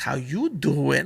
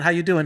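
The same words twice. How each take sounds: First: It is said in an imitated character voice. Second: It is said in a plain, flat voice.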